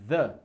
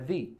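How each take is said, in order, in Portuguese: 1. A vogal é um 'uh' curto e reduzido. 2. A vogal é um 'ee' longo. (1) "Se o the vier antes de uma consoante, então a pronúncia é the" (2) "Se the vier antes de vogal, então a pronúncia é the"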